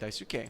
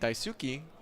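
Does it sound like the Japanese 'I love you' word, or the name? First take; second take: name; love word. First: It sounds like the Japanese given name. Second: It sounds like the Japanese word for 'I love you'. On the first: It names the player. The speaker calls it right. "I should be saying Daisuke" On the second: It expresses love instead of naming someone. The speaker calls it wrong. "I'm saying Daisuke, which means I love you"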